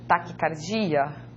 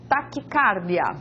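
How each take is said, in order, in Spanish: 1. El acento cae donde lo pone el portugués. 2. El acento cae donde lo pone el español. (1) "y no" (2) "la primera palabra en lengua española, ¿cómo se lee?"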